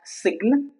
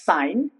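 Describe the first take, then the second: First: The G is pronounced. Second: The G is silent. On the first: The speaker calls it wrong. "it's not sign" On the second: The speaker calls it right. "it's sign"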